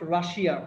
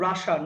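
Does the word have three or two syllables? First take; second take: three; two. First: The word is said with three syllables. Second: The word is said with two syllables. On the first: The speaker calls it wrong. "Not রাশিয়া" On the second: The speaker calls it right. "এর উচ্চারণ হচ্ছে রাশা"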